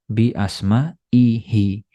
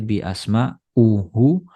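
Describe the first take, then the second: First: The ending uses the vowel i. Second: The ending uses the vowel u. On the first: The speaker calls it right. "dibaca kasroh" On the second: The speaker calls it wrong. "Nggak boleh"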